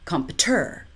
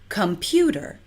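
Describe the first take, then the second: First: The stress is on the third syllable, ter. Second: The stress is on the second syllable, pu. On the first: The speaker calls it wrong. "or three" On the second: The speaker calls it right.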